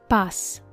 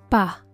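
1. La palabra termina en un sonido s claro. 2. La palabra termina en un soplo suave. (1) "la traducción en español estándar" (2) "con la pronunciación puertorriqueña"

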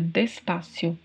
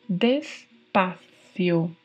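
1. O c é pronunciado como um s simples. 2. O c é pronunciado com a língua entre os dentes. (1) "Talvez seja até mais fácil para nós que falamos o português" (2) "tem um som gerado pela colocação da língua entre os dentes"

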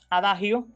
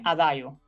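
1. Se pronuncia con sonidos españoles. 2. Se pronuncia con sonidos italianos. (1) "en español, para referirse a la sentencia breve, generalmente de carácter moral, diremos adagio" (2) "en el lenguaje musical lo adecuado sería adagio"

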